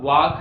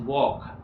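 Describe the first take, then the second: First: The vowel is an open 'aa' sound. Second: The vowel is a rounded 'aw' sound. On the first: The speaker calls it wrong. "ना ये वाक है" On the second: The speaker calls it right. "This is वॉक। ओ होगा sound आएगा वॉक।"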